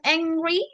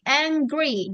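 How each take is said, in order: First: The g sound is left out. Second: The g sound is clearly pronounced. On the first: The speaker calls it wrong. "bukan angry, no" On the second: The speaker calls it right. "tapi G-nya juga dibaca ya"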